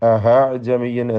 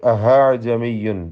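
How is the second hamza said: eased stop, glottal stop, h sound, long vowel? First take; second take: h sound; h sound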